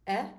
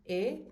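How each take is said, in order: First: "eh" with the mouth open, like the e in bet. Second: "eh" said as a closed e, like the ay in day without the glide; closed "eh", lips spread. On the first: Teacher showing students the open E, "eh". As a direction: open "eh" vowel, jaw dropped. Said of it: "So this is an open E". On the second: Teacher showing students the closed E, "eh". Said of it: "closed E". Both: Shown as a demonstration.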